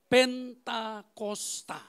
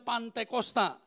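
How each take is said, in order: First: The word begins with the syllable 'pen'. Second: The word begins with the syllable 'pan'. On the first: This is the proper form. The speaker calls it right. "tapi yang sebenarnya adalah" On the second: This is how some people say it. The speaker calls it wrong. "Ada yang bilang"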